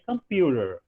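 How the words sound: It has an American accent with r-like t. "se você ouvir o americano falar ... ele vai dizer computer"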